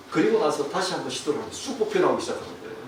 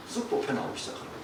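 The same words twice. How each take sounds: First: Said in the usual way. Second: Fast, breathless hushed repeat; quick whisper. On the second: Retold or imitated. Preacher telling how the wire suddenly slid out, in a fast whisper.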